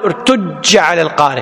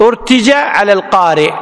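First: ارتج said "urtujja", with a held double j; wrong doubled jīm. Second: أرتج said "urtija", with a single j; light jīm. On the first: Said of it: "خطأ". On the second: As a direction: keep the jīm of أرتج short and undoubled. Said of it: "مخففة". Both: Shown as a demonstration.

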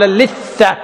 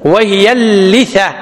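First: اللثة said "al-liththa", with a held th; wrong doubled thā. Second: اللثة said slowly with double l, single th; correct light thā. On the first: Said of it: "هذا خطأ". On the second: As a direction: hold the lām, keep the thā short in اللثة. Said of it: "اللام مشدد". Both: Shown as a demonstration.

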